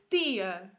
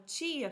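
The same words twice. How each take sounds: First: It is said in a European Portuguese accent. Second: It is said in a Brazilian Portuguese accent.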